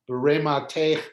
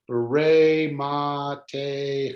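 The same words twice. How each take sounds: First: It is read quickly as one smooth word. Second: It is read slowly, one syllable at a time. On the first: "When you read it quickly" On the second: "when you're reading it by syllables"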